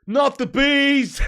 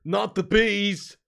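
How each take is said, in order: First: Full-volume drawn-out scream, pitched high; hammed-up movie scream, breaking into a laugh; mock scream. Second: Loud, drawn-out mock cry. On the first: Streamer quoting a film line, high screamed panic in jest. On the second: Streamer quoting a film line, loud slow mock cry. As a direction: stretch the words out, louder. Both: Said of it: "Do Nicolas Cage".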